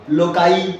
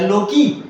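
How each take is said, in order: First: The word ends with an 'eye' sound. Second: The word ends with an 'ee' sound. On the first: The speaker calls it right. "नहीं लोकाई बोलो" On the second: The speaker calls it wrong. "लोकस का लोकी"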